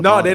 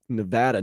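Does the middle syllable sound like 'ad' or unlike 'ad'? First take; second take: unlike ad; like ad. First: The middle syllable does not sound like 'ad'. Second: The middle syllable sounds like 'ad'. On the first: The speaker calls it wrong. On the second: The speaker calls it right. "I just found out it's Nevada, ... it's like an ad in the middle"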